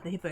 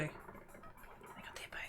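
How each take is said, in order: First: Said in the usual way. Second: Soft unvoiced whisper. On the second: Real, not acted. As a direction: whisper it like a secret.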